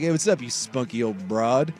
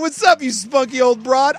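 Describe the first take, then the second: First: It sounds flat and insulting. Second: It sounds excited and playful.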